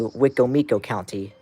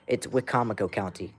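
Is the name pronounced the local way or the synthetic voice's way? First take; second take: synthetic; local. First: The name is pronounced as the synthetic voice does. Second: The name is pronounced as local people do. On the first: The speaker calls it wrong. "you don't say" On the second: The speaker calls it right. "That's how it's said"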